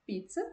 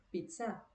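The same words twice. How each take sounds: First: Said in the usual way. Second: Pizza softer, weight moved to the final A; French pronunciation. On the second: Shown as a demonstration. Teacher advises French sounds when in doubt, pizza pronounced the French way. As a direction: say pizza the French way, ending on a stressed A. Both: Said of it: "à la française, ou seja".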